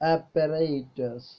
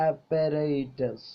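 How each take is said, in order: The two takes are said the same way.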